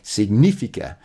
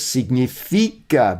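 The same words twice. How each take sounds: First: The stress is not on the second-to-last syllable. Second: The stress is on the second-to-last syllable. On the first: The speaker calls it wrong. "I was mispronouncing for ages because we say significant" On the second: The speaker calls it right. "have the emphasis on the second to last syllable"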